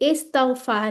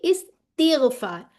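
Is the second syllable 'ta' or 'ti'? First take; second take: ta; ti. First: The second syllable has an 'a' vowel. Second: The second syllable has an 'i' vowel. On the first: The speaker calls it wrong. "इस्तगफार नहीं है" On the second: The speaker calls it right. "बल्कि इस्तिगफार"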